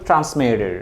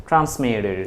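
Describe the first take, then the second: Both takes have the same delivery.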